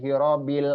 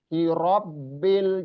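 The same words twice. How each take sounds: First: The b is said short and light. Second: The b is pressed and held doubled. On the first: The speaker calls it wrong. "jangan sampai hirobil alam, hirobil itu terlalu ringan ya" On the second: The speaker calls it right. "huruf ba juga ada tasdid di situ"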